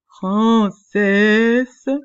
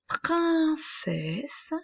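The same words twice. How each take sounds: First: It is said in a put-on ogress voice. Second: It is said in a plain natural voice. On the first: The speaker calls it right. "je vais faire la voix de l'ogresse" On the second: The speaker calls it wrong. "j'ai oublié de faire la voix de l'ogresse"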